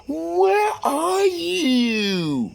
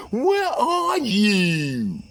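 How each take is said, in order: First: Very high, slow, drawn-out whine; mistress voice. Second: High, slow, drawn-out whine; mistress voice. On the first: Mistress on the phone demanding where he is, drawn-out high whine. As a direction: stretch it out high like a needy mistress. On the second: Mistress calling back to demand where he is, high slow whine. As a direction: sing it out high and slow like she's fed up. Mistress repeats her question. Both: Retold or imitated.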